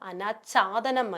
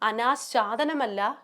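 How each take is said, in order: First: A plain aspirated ch, with no sh. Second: A sh sound comes before the ch. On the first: The speaker calls it right. "അനാച്ഛാദനം മതി" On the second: The speaker calls it wrong.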